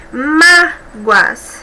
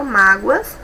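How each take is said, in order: First: MÁ... goas, first syllable long; split into syllables. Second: Said in the usual way. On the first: Shown as a demonstration. Teacher showing two syllables in Mágoas, split into syllables. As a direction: part Mágoas into two, holding MÁ. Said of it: "duas sílabas". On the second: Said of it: "Em destaque no plural".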